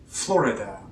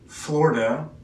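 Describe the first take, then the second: First: The middle I sound is clearly heard. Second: The middle I sound is almost dropped. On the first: "So you can kind of hear the I" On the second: "you can see there's almost no I"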